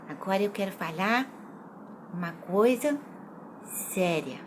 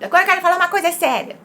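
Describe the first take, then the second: First: It is said slowly, quietly, with pauses. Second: It is said fast in a high voice.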